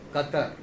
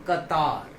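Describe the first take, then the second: First: The second syllable has a short 'tar' vowel. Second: The second syllable has a long 'taar' vowel. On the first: The speaker calls it wrong. "अक्सर लोग इसको गलत pronounce करते हैं" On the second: The speaker calls it right. "इसका सही pronunciation होगा कतार"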